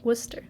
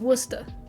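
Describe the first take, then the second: First: It is said without a Boston accent. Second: It is said with a Boston accent.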